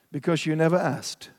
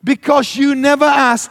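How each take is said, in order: First: Softer, lower, deadpan reply; friend's unbothered, slightly smug answer; cool, calm, unflustered. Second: Higher, louder indignant echo; repeating the friend's line in outrage; mocking repeat. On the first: Retold or imitated. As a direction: shrug it off with calm nonchalance. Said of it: "in his cool, calm, unflustered, annoying way". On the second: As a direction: throw his words back at him. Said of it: "to which I said".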